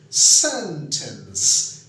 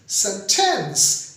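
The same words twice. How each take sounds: First: The stress is on the first syllable. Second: The stress is on the second syllable.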